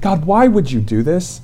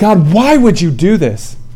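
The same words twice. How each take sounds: First: It sounds like a humble, sincerely curious question. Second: It sounds like an angry, accusing complaint.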